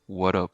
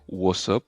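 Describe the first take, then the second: First: The T is pronounced like a D. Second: The T between the words is dropped. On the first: "Prononcer le T comme si c'était un D" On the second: "comme s'il n'y avait pas de T entre euh, le what et le up"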